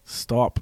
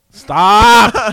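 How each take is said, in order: First: Said in the usual way. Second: Loud, high yell at yourself; exasperated outburst; frustrated shout. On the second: Real, not acted. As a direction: burst out, much louder and higher. Second try, now yelled at himself.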